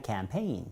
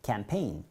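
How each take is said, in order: First: Campaign with the stress on paign; campaign, stress falling on paign; stress on the second syllable. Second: Campaign said softly with the stress on paign; stress on the second syllable. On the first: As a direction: lean on the last syllable of campaign. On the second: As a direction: repeat campaign, hitting paign. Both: Shown as a demonstration. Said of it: "강세가 뒤에 있으니까".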